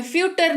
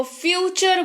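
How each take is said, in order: First: फ्यूटर said with a hard t, the wrong way; फ्यूटर as a mistaken reading with t; फ्यूटर with t instead of ch; wrong t sound. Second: फ्यूचर said with a clear ch for the t; फ्यूचर, t turned to च; फ्यूचर pronounced fyoo-cher; ch sound. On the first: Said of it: "नहीं बोलते हैं इसको". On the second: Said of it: "T का उच्चारण च के तौर पर". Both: Shown as a demonstration.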